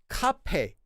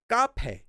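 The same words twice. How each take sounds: First: The first consonant is aspirated, with a breath. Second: The first consonant is tense, like a double consonant. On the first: "with a strong kiuk" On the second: "as if it were a double consonant"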